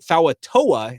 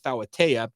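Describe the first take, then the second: First: The surname ends with a 'toa' sound. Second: The surname ends with a 'tea' sound. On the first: The speaker calls it wrong. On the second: The speaker calls it right. "instead of"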